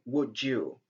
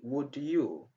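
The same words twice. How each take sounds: First: The d and y merge into a j sound. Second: The d and y are said as separate sounds. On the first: "it's better to say" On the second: "instead of saying"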